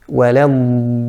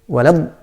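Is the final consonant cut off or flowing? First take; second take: flowing; cut off. First: The final consonant sound continues and flows. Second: The final consonant is cut off abruptly. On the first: The speaker calls it right. "the correct dad, the sound flows" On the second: The speaker calls it wrong. "is to cut the sound completely"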